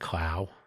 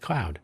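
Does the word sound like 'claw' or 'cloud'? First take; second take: claw; cloud. First: The vowel is like claw, with no ow sound. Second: The vowel is like cloud, with an ow sound. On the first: "Some people pronounce that" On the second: "Some people pronounce it"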